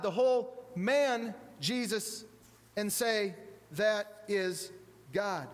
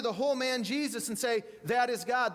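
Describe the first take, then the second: First: The whole man Jesus, spaced out word by word; slow it right down, pausing before "God"; slow, deliberate emphasis. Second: Said in the usual way. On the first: Acted. Preacher repeats Luther's words to the congregation, slow and deliberate.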